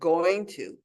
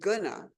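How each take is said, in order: First: The phrase is said fully as two words. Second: The phrase is reduced to one clipped word. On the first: The speaker calls it right. "instead of going to" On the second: The speaker calls it wrong. "when people say gonna instead of going to"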